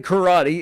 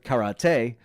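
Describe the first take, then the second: First: It is said with an everyday English pronunciation. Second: It is said with a foreign, original-language pronunciation. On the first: The speaker prefers the familiar local form. "So I will say karate" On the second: This is the form the speaker chooses not to use. "instead of karate"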